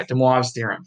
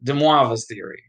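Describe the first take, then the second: First: American accent, imitating a librarian; imitated American librarian. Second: Lightly Italian-sounding "Demoivre's"; slightly Italian accent. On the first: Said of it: "I can imitate this American librarian guy". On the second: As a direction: let a hint of Italian accent creep in. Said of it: "make it sound more and more Italian". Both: Shown as a demonstration.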